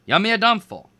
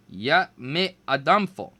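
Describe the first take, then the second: First: Higher, louder attempt; louder retry. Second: Slow careful repeat. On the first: Boy trying the spell again, louder. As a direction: push the spell harder. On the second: Kame repeated. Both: A narrator's reading.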